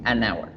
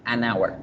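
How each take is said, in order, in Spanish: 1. Un sonido n enlaza el artículo con 'hour'. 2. Un sonido n enlaza el artículo con 'hour'.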